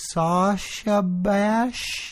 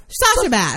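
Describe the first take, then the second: First: Very slow, unsure "Sasha Bash", rising; testing a word on a GPS, slow and unsure; tentative. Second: Lightly voiced confident machine "Sasha Bash", falling; a hint of a cheerful navigation voice; mock GPS voice. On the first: Retold or imitated. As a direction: spell it out hesitantly to the machine. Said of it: "all, like, tentative". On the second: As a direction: GPS confidently repeats the name. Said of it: "And this bitch goes".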